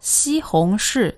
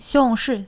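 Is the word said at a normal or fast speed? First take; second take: normal; fast. First: The word is said at a normal speed. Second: The word is said very quickly and blurred.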